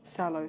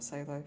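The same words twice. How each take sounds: First: Salo with first vowel as in "sat"; corrected pronunciation. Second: Salo said like "SAY-lo"; mistaken pronunciation. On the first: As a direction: say "Salo" opening on a short a. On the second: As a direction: make the first vowel of "Salo" rhyme with "say". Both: Shown as a demonstration. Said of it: "sorry, not Salo".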